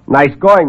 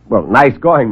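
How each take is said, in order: First: Louder mocking praise; sarcastic. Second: Mocking praise, louder; sarcastic. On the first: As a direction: sneer the compliment loudly. Reporter mocks again. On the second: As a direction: sneer the compliment. Reporter mocks visitor.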